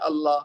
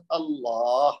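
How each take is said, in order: First: اللہ cut off at the lam, the final ha dropped; common mistake. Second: اللہ carried through to an audible ha at the end; correct final ha. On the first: Teacher imitating the common mistake for students: ha left silent. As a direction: say اللہ the wrong way, stopping dead on the lam. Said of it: "ہمارے ہاں ایک غلطی یہ ہوتی ہے کہ ہم کہہ دیتے ہیں". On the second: Teacher to students, the right way after the mistake: ha sounded. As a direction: take اللہ all the way to the ha, don't stop on the lam. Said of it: "بلکہ ہا تک لے کے جانی آواز". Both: Shown as a demonstration.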